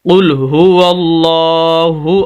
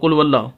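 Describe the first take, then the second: First: The hu syllable is clearly pronounced. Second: The hu syllable is dropped. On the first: The speaker calls it right. "ये हु आवाज़ ये क्लियर होनी चाहिए" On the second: The speaker calls it wrong. "हु को अक्सर लोग नहीं पढ़ते"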